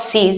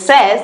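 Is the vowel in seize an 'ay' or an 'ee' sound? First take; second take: ee; ay. First: The vowel is an 'ee' sound. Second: The vowel is an 'ay' sound. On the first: The speaker calls it wrong. "not sees" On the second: The speaker calls it right. "It is says, because E I in French sounds A"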